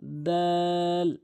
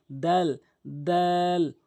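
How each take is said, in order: First: দাল held very long; letter demonstration. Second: দাল drawn out very slowly; letter demonstration. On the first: Teacher demonstrating দাল for students, very slow. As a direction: draw দাল out slowly. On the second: Teacher contrasting দাল with তা for students, very drawn out. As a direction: stretch দাল long, tongue on the tooth ridge. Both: Shown as a demonstration. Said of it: "এভাবে উচ্চারণ করবেন".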